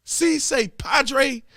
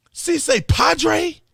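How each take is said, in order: First: Higher, slow repeat of "Si se padre" with "padre" said "PAH-dray"; mocking mispronunciation. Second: Higher, slow disbelieving echo of "Si se padre"; incredulous mock quote. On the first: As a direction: drag out "Si se padre" to mock the mistake. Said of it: "spell it wrong on a teleprompter". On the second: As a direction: repeat "Si se padre" slowly as if you can't believe it.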